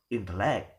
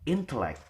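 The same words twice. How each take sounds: First: The stress is on the last syllable. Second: The stress is on the first syllable. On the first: The speaker calls it wrong. "or in the last" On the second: The speaker calls it right. "the stress is given in the first syllable"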